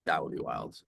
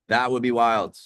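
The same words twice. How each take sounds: First: Said in the usual way. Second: Raised pitch, much louder; excited exclamation. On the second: Real, not acted. Streamer imagining midstream ads to viewers, loudly excited. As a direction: exclaim it, high and loud.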